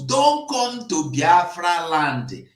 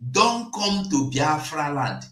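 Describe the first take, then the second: First: 1 slow shouted warning. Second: 1 shouted warning. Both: Real, not acted.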